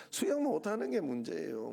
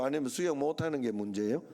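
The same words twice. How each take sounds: First: 수영 stressed, pitch falling firmly at the end; preacher answers his own question, falling tune. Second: 수영 stressed, pitch rising at the end as a question. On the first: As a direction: answer your own question, settling down on 문제예요. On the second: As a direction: ask it, lifting 수영 and rising on 문제예요. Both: Shown as a demonstration.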